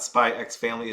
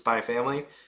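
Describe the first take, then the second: First: The letter X is spoken between the words. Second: The letter X is left silent between words. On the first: The speaker calls it wrong. "it's not Spy X Family" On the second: The speaker calls it right. "It's just Spy Family"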